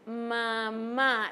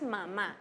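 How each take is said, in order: First: The word is drawn out slowly. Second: The word is said at normal speed.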